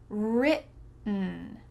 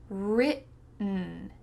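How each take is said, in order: The two takes are said the same way.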